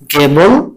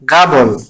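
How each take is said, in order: First: The first vowel sounds like 'e'. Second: The first vowel sounds like 'a'. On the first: "গেবল অথবা বলতে পারেন গাবল" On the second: "বলতে পারেন গাবল"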